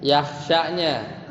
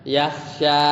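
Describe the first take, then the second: First: "Yahsyanya" with the sya cut short; short final vowel. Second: "yahsya" with the final a held long; long final vowel. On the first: Teacher points out the jussive word, short sya. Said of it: "kalau lamnya dibuang bacanya". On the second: Teacher shows reading without lam, long final a. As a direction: stretch the last vowel of "yahsya". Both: Shown as a demonstration.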